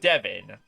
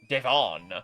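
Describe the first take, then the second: First: It is pronounced like a man's first name. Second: It is pronounced like the company's name. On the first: It refers to a man. The speaker calls it wrong. "not Devon. Make it sound like it's a dude's name" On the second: It refers to the corporation. The speaker calls it right. "Devon, the corporation"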